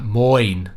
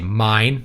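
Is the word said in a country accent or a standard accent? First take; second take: country; standard. First: The vowel sounds like 'oy', a country accent. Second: The vowel sounds like 'eye', a standard accent. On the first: "how they actually pronounce it" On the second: "You would say mine"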